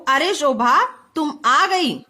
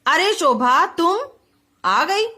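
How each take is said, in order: First: Slow call "अरे शोभा", then "तुम आ गई"; pause after शोभा. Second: "अरे शोभा तुम" run together, long break before "आ गई"; pause after तुम. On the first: Teacher reading choices for the exclamation mark, pausing after "Shobha". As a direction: break after "Shobha", keep "तुम आ गई" together. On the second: Teacher reading choices for the exclamation mark, pausing after "तुम". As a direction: hold off after "तुम", then add "आ गई". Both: Shown as a demonstration. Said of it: "अब कौन सा वाक्य हमारा सही है".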